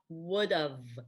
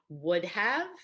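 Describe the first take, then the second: First: 'Have' shrinks to a short 'v' sound. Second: Both words are said in full. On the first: "I would've is fine" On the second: "I would have is fine"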